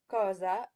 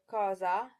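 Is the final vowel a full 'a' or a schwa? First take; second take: schwa; full a. First: The final vowel is reduced to a schwa. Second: The final vowel is a clear full 'a'. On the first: The speaker calls it wrong. "English speakers will tend to say cosa" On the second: The speaker calls it right. "instead of cosa"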